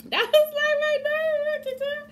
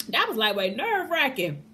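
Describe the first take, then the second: First: "nerve-wracking" squealed much higher; a relieved high-pitched squeal. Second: Said in the usual way. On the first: Real, not acted.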